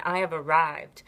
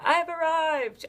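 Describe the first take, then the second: First: Said in the usual way. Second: Grand, much higher, slow proclamation of I have arrived; a hammed-up talk show host triumph; Oprah impression. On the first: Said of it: "own mantra said sincerely". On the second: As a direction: announce it like Oprah, big and sweeping. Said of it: "I'm like, you know, Oprah".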